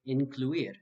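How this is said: The vowels are pronounced with an English accent. The speaker calls it wrong. "An English speaker might be tempted to say incluir. However, this would be a mistake"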